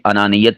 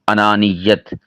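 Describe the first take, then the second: First: The y sound is short and single. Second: The y sound is held and doubled. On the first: The speaker calls it wrong. "या के ऊपर तशदीद नहीं पढ़ते, ये गलत है" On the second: The speaker calls it right. "सही क्या होता है?"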